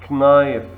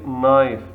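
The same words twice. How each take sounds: First: Knife with the K sounded, k-nife; knife, start on a hard K; wrong way. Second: Knife said nife, K silent, slowly; knife, no K, drawn out; right way. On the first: Teacher shows the wrong knife with a spoken K. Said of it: "We don't say knife". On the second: Teacher models knife slowly for students, K silent. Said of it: "We say knife". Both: Shown as a demonstration.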